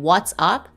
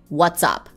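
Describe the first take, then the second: First: The two words are said separately, not linked. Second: The final consonant links into the next vowel. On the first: The speaker calls it wrong. "instead of saying" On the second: The speaker calls it right. "it will be"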